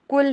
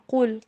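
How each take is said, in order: First: The word is said with a thin, light sound. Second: The word is said with a full, heavy sound. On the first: The speaker calls it wrong. "कुल नहीं" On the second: The speaker calls it right. "कुल पुर करके पढ़िए"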